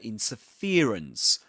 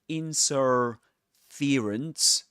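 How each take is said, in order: First: The main stress falls on the 'fer' syllable. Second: The main stress falls away from the 'fer' syllable. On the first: The speaker calls it right. "the main stress goes on fear" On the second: The speaker calls it wrong. "It's not interference"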